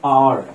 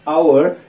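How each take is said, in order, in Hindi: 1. यह एक अक्षर में बोला जाता है, जैसे अक्षर R। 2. यह दो अक्षर में बोला जाता है, जैसे ow-er। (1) "ये जो हमारा एक लेटर होता है आर, उस तरीके से इसको बोलते हैं आर" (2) "इसको हम लोग आवर आवर पढ़ते थे बट इट्स नॉट आवर"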